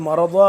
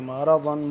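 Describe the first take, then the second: First: The word ends in a long a vowel. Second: The word ends in an n sound. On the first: The recitation stops after this word. "वक्फ़ करेंगे तो मरदा" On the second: The recitation continues without stopping. "अगर वक्फ़ नहीं करेंगे तो फिर मरदन पढ़ेंगे"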